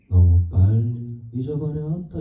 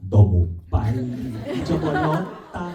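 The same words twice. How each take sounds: First: The syllables run together loosely, like casual speech. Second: Each syllable is articulated crisply and separately. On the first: This is how it is performed nowadays. "요새는 너무 빨리 잊어버렸다 이렇게 하거든요" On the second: This is how it was done on the early recordings. "레코딩을 들으면 너무 빨리 잊어버렸다 했더니 이렇게 녹음이 돼 있어요"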